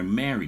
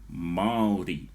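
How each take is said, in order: First: It sounds like the English word marry. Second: Its vowels are said separately, not like marry. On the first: It is read as if it were English. The speaker calls it wrong. "it will come out like marry" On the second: It is read with Māori vowel sounds. The speaker calls it right. "instead of going a or ri"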